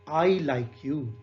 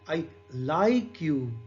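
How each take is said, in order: First: The stress is on the word I. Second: The stress is on the word like. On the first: "in the first sentence, the stress is on I" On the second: "Second is"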